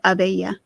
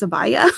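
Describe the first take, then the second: First: The word is said like the end of galabeya. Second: The word is said unlike the end of galabeya. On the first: This is the speaker's own habitual way of saying it. "I have always said abeya, as in galabeya" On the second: This is how most other people say it. "everyone else in the entire world says abaya"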